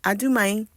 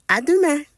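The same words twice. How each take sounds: First: "À demain" ending on a broad "a" sound; second regional take of "À demain"; another French pronunciation. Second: "À demain" with an open final vowel, higher and louder; first regional take of "À demain"; one French pronunciation. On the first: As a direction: say "À demain" as "a duma". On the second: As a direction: say "À demain" ending on an open "mæ" sound. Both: Shown as a demonstration. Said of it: "Some say".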